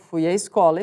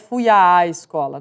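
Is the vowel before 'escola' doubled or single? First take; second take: single; doubled. First: The 'a' is a single sound, fused together. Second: The 'a' is doubled, sounded out separately. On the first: The crase is only marked in writing. The speaker calls it right. "Os dois fonemas estão casadinhos aí" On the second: The written crase is being marked in speech. The speaker calls it wrong. "para dizer que tem crase"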